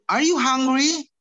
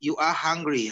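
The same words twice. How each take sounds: First: "Are you hungry" slow, high and loud, rising; exaggerated rising tune on "hungry"; question intonation. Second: "You are hungry" level, falling at the end; full-stop fall on "hungry"; statement intonation. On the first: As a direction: stretch it out and lift "hungry" as a question. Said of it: "Intonasinya begitu". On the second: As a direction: state it plainly, dropping on "hungry". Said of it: "ini namanya statement". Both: Shown as a demonstration.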